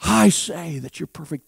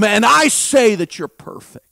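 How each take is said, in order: First: Quieter, tender restatement; hushed sincere echo; soft repeat. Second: Loud God's proclamation; booming divine statement; loud declaration. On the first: Real, not acted. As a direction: gently repeat it to the listener. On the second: Acted. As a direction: declare it as God. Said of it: "I am who I am".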